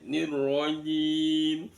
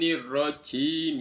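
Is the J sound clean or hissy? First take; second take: clean; hissy. First: The J has no hissing air sound. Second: The J has an airy hissing sound. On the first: The speaker calls it right. "tanpa ada desisan angin" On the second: The speaker calls it wrong. "bukan nirrajim ya"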